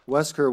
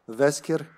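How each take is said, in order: First: It is said with an English pronunciation. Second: It is said with a Serbian pronunciation.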